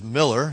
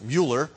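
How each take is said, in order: First: The first vowel sounds like in 'mill'. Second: The first vowel sounds like in 'mule'. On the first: The speaker calls it right. "but it is Miller" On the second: The speaker calls it wrong. "Sometimes you might be tempted to pronounce it Mueller"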